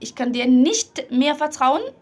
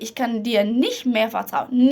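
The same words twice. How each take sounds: First: The t at the end of nicht is strong. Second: The t at the end of nicht is soft. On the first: The speaker calls it wrong. "بلاش اقول" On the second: The speaker calls it right. "نحاول ان احنا نخفف خالص التي اللي في الاخر دي"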